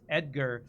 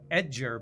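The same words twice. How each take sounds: First: The middle consonant is a hard G sound. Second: The middle consonant is a J sound. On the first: The speaker calls it right. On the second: The speaker calls it wrong.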